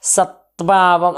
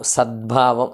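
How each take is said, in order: First: "సత్భావం" with a hard t before bh; unvoiced T pronunciation. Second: "సద్భావం" with d running into bh; voiced D pronunciation. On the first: Teacher showing what we don't say, "సత్భావం" with hard t. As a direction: say "సత్భావం" splitting sat from bhaavam. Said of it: "అని అనము". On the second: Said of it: "అంటాం". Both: Shown as a demonstration.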